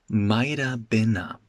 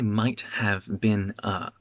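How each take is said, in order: First: The words are reduced and run together. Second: Each word is pronounced fully and separately. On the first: The speaker calls it right. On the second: The speaker calls it wrong.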